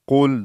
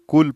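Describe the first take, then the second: First: It starts with a deep, heavy q sound. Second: It starts with a light, front k sound. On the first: It means say. The speaker calls it right. "दो नुक्ता काफ मोटा पढ़ा जाए" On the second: It means eat. The speaker calls it wrong. "ठीक वाले काफ के साथ पढ़ते हैं, तो ये गलत है"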